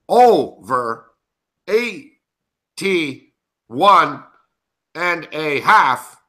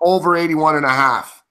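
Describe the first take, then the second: First: It is said slowly. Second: It is said at normal speed.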